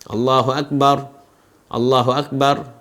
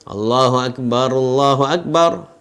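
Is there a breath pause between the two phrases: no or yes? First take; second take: yes; no. First: Each phrase is said in its own breath. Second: Both phrases are joined in a single breath. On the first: The speaker calls it wrong. "tidak dengan empat nafas ... tidak begitu" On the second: The speaker calls it right. "diucapkan dengan dua kali nafas saja"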